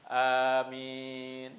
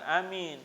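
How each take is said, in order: First: The first vowel and the final syllable are drawn out. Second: The first vowel and the final syllable are short. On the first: The speaker calls it right. "Jadi panjang" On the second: The speaker calls it wrong. "bukan amin"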